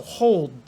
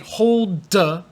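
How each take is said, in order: First: The final D is very light, almost silent. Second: The final D is released with an extra vowel. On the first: The speaker calls it right. "It should be very light. You almost can't hear the D" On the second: The speaker calls it wrong. "you don't say hold the. No, no, no"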